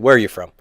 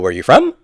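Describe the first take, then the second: First: The voice falls at the end. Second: The voice rises at the end. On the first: The speaker calls it right. "You say" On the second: The speaker calls it wrong. "You don't have to go"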